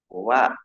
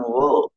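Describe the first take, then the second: First: The syllable is pronounced thin and light. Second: The syllable is pronounced thick and heavy. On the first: The speaker calls it right. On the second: The speaker calls it wrong.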